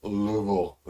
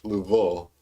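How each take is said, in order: First: The name is said lazily, with its sounds slurred together. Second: The name is said lazily, with its sounds slurred together.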